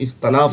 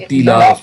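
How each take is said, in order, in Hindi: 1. t के बाद का स्वर 'a' है। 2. t के बाद का स्वर 'i' है। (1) "इख्तलाफ हम लोग जो कहते हैं, लफ्ज़ गलत है।" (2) "देखिए ताज़िर है इख्तिलाफ।"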